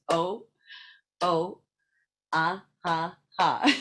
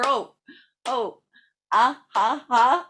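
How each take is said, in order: First: It is said at a normal pace. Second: It is said at a faster pace.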